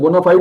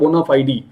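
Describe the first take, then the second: First: The word ends on a final 'd' sound. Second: The word ends with an added 'ee' vowel. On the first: "दोनों तरीके से इसको बोलते हैं" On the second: "दोनों तरीके से इसको बोलते हैं"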